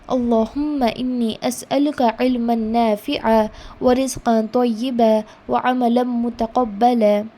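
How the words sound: It is recited with stops after each phrase. "stop in the middle after one portion of line"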